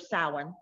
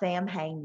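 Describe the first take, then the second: First: It is pronounced the Irish way. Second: It is pronounced as two English-sounding words. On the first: The speaker calls it right. "the proper pronunciation of it" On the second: The speaker calls it wrong. "It's not it's not Sam Hain"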